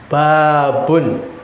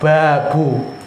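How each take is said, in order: First: The word ends with an n sound. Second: The word ends on a bare vowel. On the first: The speaker calls it right. "Itu dibaca dengan tanwin" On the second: The speaker calls it wrong. "Enggak dibaca babu"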